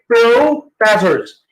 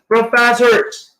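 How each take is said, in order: First: The first O is a long vowel. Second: The first O is a short vowel. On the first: The speaker calls it wrong. "Do not say professors" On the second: The speaker calls it right. "Then professors is short O, as in pro"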